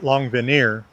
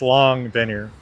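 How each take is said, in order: First: The main stress falls on the last syllable. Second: The main stress falls on the first syllable. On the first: The speaker calls it wrong. "it's not" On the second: The speaker calls it right. "Primary stress is on the first syllable"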